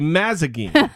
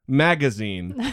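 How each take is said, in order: First: The z sound comes before the g sound. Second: The g sound comes before the z sound. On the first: The speaker calls it wrong. "I used to mispronounce the word magazine. And I would say mazagine" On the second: The speaker calls it right. "So I'll have to think, pause, magazine, so I don't fuck it up"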